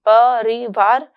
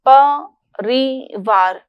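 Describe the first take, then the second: First: The word is said with even, moderate stress. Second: The word is said with heavy, forced stress. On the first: The speaker calls it right. "परिवार ही हो" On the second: The speaker calls it wrong. "परिवार ना होकर"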